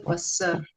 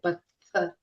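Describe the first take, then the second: First: The middle consonant is an s sound. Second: The middle consonant is a breathy th sound. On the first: The speaker calls it wrong. "we don't say passar" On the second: The speaker calls it right. "We say patthar"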